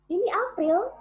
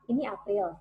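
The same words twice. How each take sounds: First: It is said with moderate vocal power. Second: It is said with the least vocal power.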